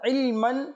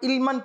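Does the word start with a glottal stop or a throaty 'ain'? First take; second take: throaty ain; glottal stop. First: It starts with a throaty pharyngeal 'ain' sound. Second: It starts with a plain glottal stop. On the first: The speaker calls it right. "বরঞ্চ সঠিক হচ্ছে আইন" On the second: The speaker calls it wrong. "অনেকে আবার ইলমান পড়বে অর্থাৎ হামজা উচ্চারণ করবে, তো এটা সঠিক নয়"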